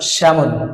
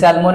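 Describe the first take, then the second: First: The L sound is silent in the middle. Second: The L sound is pronounced in the middle. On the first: The speaker calls it right. "এলটা silent letter এখানে" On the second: The speaker calls it wrong. "স্যালমন যেটা বলছে"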